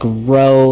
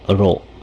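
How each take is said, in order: First: The O vowel is drawn out and glides. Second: The O vowel is cut off short. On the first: The speaker calls it wrong. "is kind of more of a drawn out O sound at the end" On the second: The speaker calls it right. "cut it off before before it gets too too far"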